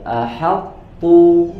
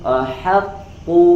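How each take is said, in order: The two takes are said the same way.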